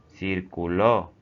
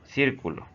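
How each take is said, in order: First: The stress is on the last syllable. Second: The stress is on the first syllable. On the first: It is a verb form for he, she or you. "es un verbo de segunda y tercera persona singular" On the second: It names a round geometric figure. "Esta es una figura geométrica delimitada por una circunferencia"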